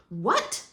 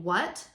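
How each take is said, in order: First: "what" punched with a sharp questioning rise; emphatic question. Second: Said in the usual way. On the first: Shown as a demonstration. Teacher showing students what an accent does, emphatic "what". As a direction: hit "what" as a question and exclamation at once. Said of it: "question mark and an exclamation point". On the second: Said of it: "with a question mark".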